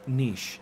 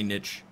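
First: The word ends with an 'sh' sound, like 'quiche'. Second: The word ends with a 'ch' sound, like 'itch'. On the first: The speaker calls it right. "Like quiche, niche, yes" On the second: The speaker calls it wrong. "Some people say niche, which there's no T"

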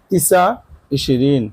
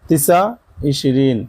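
No difference in how they are said.

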